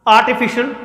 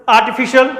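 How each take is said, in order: No difference in how they are said.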